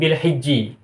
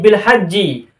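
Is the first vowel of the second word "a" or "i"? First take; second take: i; a. First: The first vowel of hijji is an i sound. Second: The first vowel of hajji is an a sound. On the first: This is the dialect reading of the people of Najd. "hurufnya kasroh" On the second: This is how the majority of readers recite it. "hanya juga fathah"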